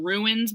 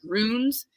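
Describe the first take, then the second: First: The word sounds like 'ruins'. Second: The word sounds like 'runes'. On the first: The speaker calls it wrong. "I was saying ruins before. Everyone wanted to kill me for saying it like that" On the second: The speaker calls it right. "But it's runes"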